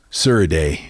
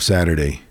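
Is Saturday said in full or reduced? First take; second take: reduced; full. First: It is reduced, with the middle sounds blurred together. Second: It is said in full, with every sound clear.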